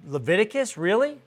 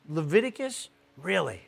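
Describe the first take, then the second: First: Doubting rise on really; a mild hint of disbelief, really? lifted up; incredulous question. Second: Said in the usual way. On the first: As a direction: skeptical Leviticus, really? rising at the end. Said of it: "some of you are probably already saying".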